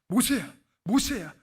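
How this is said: The name is called in an urgent, pressing way.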